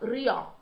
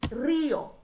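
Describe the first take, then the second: First: The stress is on the second syllable. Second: The stress is on the first syllable. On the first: The speaker calls it wrong. "e não rio; seria muito normal que a gente lesse rio" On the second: The speaker calls it right. "a tonicidade passa para o I e se torna rio"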